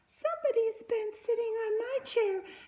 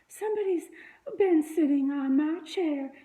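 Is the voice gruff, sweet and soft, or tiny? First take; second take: tiny; sweet and soft. First: It is said in a tiny, itty-bitty voice. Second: It is said in a sweet, soft voice. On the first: "he said in his itty-bitty voice" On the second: "she said in her sweet, soft voice"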